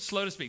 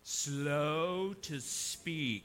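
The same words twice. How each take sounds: First: It is said in the speaker's plain accent. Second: It is said in an East Texas accent.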